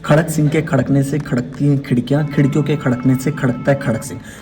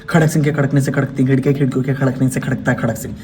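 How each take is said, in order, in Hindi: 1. इसे मध्यम रफ़्तार से बोला जाता है। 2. इसे तेज़ रफ़्तार से बोला जाता है। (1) "फिर उसके बाद सेकंड" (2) "फिर फास्ट"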